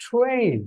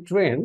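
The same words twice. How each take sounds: First: "ট্রেন" with a breath-puffed English t; corrected English pronunciation. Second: "ট্রেন" with an unaspirated Bangla t; local Bangla pronunciation. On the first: Teacher giving the new way to say it, "ট্রেন" with aspirated t. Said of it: "এখন থেকে হবে কি". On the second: Teacher showing how we usually say it, "ট্রেন" with unaspirated t. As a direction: say "ট্রেন" the everyday Bangla way, no puff on the t. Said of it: "আমরা বলি কি". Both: Shown as a demonstration.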